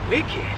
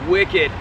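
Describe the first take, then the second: First: It is said quietly, as if to oneself. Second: It is said casually, with a bit of swagger. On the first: The speaker is realizing something privately. "almost to myself like it's a realization" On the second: The speaker is showing off to others. "I'm showboating a bit, but I'm just kind of casual"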